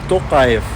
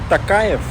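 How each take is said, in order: First: The first vowel sounds like 'o'. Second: The first vowel sounds like 'a'. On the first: The speaker calls it right. "буква О тоже же не сложно сказать" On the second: The speaker calls it wrong. "не Такаев"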